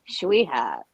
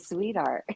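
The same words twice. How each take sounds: First: It is said with a strong Brooklyn accent. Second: It is said with a neutral, unmarked accent. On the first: This is how the locals say it. "I also don't say sweetheart" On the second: This is how the speaker actually says it. "I just say sweetheart"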